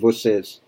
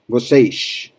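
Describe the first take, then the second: First: The final S is said the standard way. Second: The final S is said the Rio way. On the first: This is the usual Brazilian pronunciation. "But the standard pronunciation would be vocês for the S at the end" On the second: The speaker sounds like someone from Rio. "So Rio"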